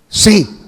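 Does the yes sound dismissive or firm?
firm. The yes sounds firm and resolute. The speaker is certain. "Hay firmeza"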